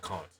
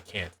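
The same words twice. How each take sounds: First: The word is said in a posh accent. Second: The word is said in a plain accent. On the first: "with the posh accent, it's can't" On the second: "You guys don't say can't"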